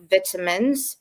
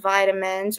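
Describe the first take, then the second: First: It is said with a British pronunciation. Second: It is said with an American pronunciation.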